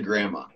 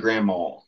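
First: It is said in a standard way. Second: It ends with a w-sound, Ohio style.

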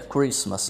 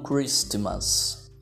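First: The t in the middle is silent. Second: The t in the middle is pronounced. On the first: The speaker calls it right. "esse T é mudo. Fica Christmas" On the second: The speaker calls it wrong. "e não Christmas"

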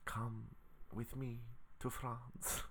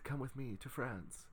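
First: It is said with an attempted French accent. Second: It is said without a French accent. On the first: "let me try to do a French accent" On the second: "That's not my French accent"

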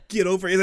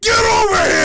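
First: It is said in a calm, normal voice. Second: It is screamed in a raging voice.

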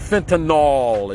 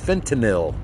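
First: The last syllable sounds like 'nol'. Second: The last syllable sounds like 'nil'. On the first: The speaker calls it wrong. "It's not fentanyl. It doesn't end in N-O-L" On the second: The speaker calls it right. "It's fentanyl"

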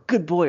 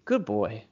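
First: It is said in a normal, louder voice. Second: It is said quietly and calmly.

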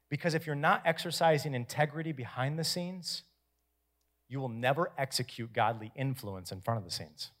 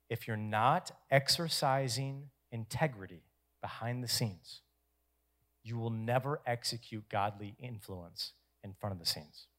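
First: It is said at a faster pace. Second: It is said at a slower pace.

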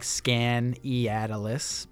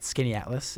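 First: The name is sounded out as it is spelled. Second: The name is said the shortened local way. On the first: This is how the spelling suggests it sounds. The speaker calls it wrong. "it's spelled like Skaneateles" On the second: This is how the town is really called. The speaker calls it right. "but Skaneateles"

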